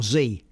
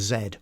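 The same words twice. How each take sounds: First: The letter is said the North American way. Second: The letter is said the non-North-American way.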